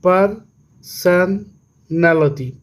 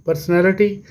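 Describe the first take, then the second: First: Slow "personality", broken as पर, सन, नैलिटी; pauses inside personality after पर and सन; syllable by syllable. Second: Said in the usual way. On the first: Shown as a demonstration. ("Personality" धीरे-धीरे, हिस्सों में तोड़कर) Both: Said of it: "इसी तरह से".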